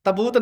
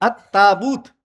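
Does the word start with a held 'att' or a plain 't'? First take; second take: plain t; held att. First: It starts with a short plain 't' sound. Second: It starts with 'a' and a held 'tt'. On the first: The speaker calls it wrong. "तबूत नहीं" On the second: The speaker calls it right. "थोड़ा सा लंबा करके"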